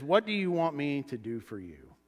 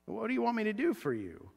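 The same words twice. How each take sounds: First: Said in the usual way. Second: Softer, higher question, lifted on "do" then falling; wondering repeat. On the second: Shown as a demonstration. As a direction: gently lean on "do" with raised pitch. Same question repeated for reflection.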